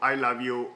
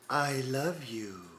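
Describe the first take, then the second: First: It is said in a flat, monotonous, mechanical voice. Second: It is said in a warmer, more human-sounding voice. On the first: "how boring and monotonous and how empty that would be" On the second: "it just says it in a more human voice"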